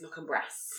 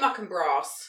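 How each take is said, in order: First: It is said in a northern English accent. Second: It is said in a southern English accent. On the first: "Abby, who works for me, is Muck and Brass" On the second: "the southern way"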